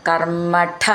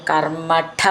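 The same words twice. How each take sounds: No difference in how they are said.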